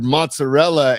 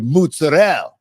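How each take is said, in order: First: The final A sound is pronounced. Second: The final A sound is dropped.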